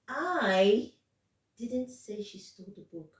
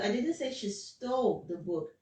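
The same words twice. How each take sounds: First: The word I carries the main stress. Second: The word stole carries the main stress. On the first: Someone else said it. "Now the stress is on. I'm not the one that said it" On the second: She probably took it. "there's stress on the stole"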